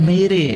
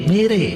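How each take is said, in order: The two takes are said the same way.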